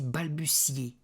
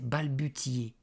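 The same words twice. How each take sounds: First: The middle consonant is an S sound. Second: The middle consonant is a hard T sound. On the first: The speaker calls it right. "ça se dit balbutier / ça se dit C" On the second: The speaker calls it wrong. "que je disais balbutier"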